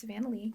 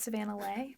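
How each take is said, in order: First: The surname ends with an 'ee' vowel. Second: The surname ends with an 'ay' vowel. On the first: The speaker calls it right. "but it's Savannah Lee" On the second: The speaker calls it wrong. "Sometimes it's Savannah Lay"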